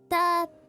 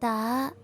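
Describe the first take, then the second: First: The pitch stays level throughout. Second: The pitch rises from low to high. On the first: "The first one is flat" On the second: "The second one is like from low to high"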